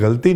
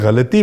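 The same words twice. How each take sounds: First: 'गलती' with an ordinary hard g; बिना नुक़्ते का उच्चारण. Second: 'गलती' with Urdu throaty ghain at the start; Urdu तलफ़ुज़. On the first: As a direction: say 'गलती' as galti, no throaty ghain. ('गलती' में सादा ग, बिना नुक़्ते) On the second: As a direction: say 'गलती' as ghalti, not with a hard g. ('गलती' का ग नुक़्ते वाला, ग़लती) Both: Shown as a demonstration. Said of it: "मैं गलती नहीं बोलता हूँ".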